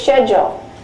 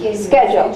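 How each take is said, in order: First: It starts with an sh sound, British style. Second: It starts with a k sound, American style.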